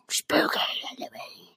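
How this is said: It is said in a creepy, Gollum-like voice.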